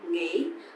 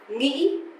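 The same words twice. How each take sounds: First: It is said softly in a southern accent. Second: It is said in a northern accent. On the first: "people from the south, the southern um, accent, they would say nghĩ, a bit softer" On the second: "the northern accent"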